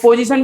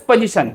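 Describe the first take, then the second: First: पोजीशन said as po-zishan; full O sounded. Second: पोजीशन said as puh-zishan; teacher's reduced vowel. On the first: Shown as a demonstration. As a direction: round full O in the first syllable of पोजीशन. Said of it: "पोजीशन भी नहीं बोलते थे". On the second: Retold or imitated. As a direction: weaken the first vowel of पोजीशन to a schwa. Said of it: "वो बोलते थे".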